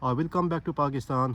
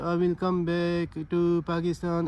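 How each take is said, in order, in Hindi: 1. यह दृढ़ता और सहजता से कहा जाता है, बिना फिलर के। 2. यह झिझक के साथ कहा जाता है, बीच-बीच में फिलर आवाज़ें आती हैं। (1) "आपने बड़े फ़र्म तरीके से बोलना है" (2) "ऐसे नहीं बोलना"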